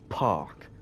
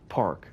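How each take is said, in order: First: The R after the vowel is silent. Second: The R after the vowel is pronounced. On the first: "And if you're a Brit, or I guess with that with the accent" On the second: "So, in America"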